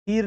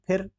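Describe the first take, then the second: First: फिर as "pheer"; wrong long ee. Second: फिर as a quick "phir"; short i. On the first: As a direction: stretch the vowel of फिर. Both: Shown as a demonstration. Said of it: "फिर नहीं".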